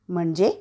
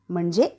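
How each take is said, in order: The two takes are said the same way.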